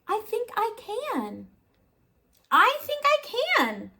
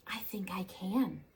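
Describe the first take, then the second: First: Little engine rising to a high determined cry; rising resolve. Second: Soft whisper, just to herself; little engine whispering, unsure; whispered resolve. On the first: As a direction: grow bolder with each repeat. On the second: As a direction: breathe it like a quiet hope. Engine's first quiet try. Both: A narrator's reading.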